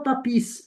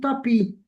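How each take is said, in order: First: The final S sound is pronounced. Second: The final S sound is silent. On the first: The speaker calls it wrong. "On ne dit pas tapis" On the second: The speaker calls it right. "je ne prononce pas la lettre S. ... on dit tapis"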